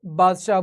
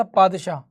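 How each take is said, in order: First: बादशाह with an initial B sound; Indian pronunciation. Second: पादशाह with an initial P sound; original pronunciation. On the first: Teacher showing what India began to say, Indian B pronunciation. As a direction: say बादशाह starting on B, not P. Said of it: "pronunciation की वजह से India में". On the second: Teacher giving the actual name of the post, original P pronunciation. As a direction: say पादशाह starting on P, not B. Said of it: "post का नाम था पादशाह". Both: Shown as a demonstration.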